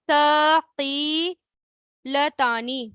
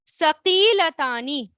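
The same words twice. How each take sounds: First: ثقیلتانی drawn right out, each syllable held; very slow repeat. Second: ثقیلتانی said slowly and clearly; slow model word. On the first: Teacher repeats the word for students to copy, very slowly. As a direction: stretch ثقیلتانی out for them to copy. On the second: Teacher introduces the new word to students, slowly. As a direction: say ثقیلتانی carefully, a little slow. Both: Shown as a demonstration. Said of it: "پھر کیا آتا ہے؟".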